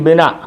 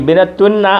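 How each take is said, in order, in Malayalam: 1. 'tun' ഇല്ലാതെ വാക്ക് അവിടെ നിൽക്കുന്നു. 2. ഈ വാക്ക് 'tun' എന്ന അക്ഷരത്തിൽ അവസാനിക്കുന്നു.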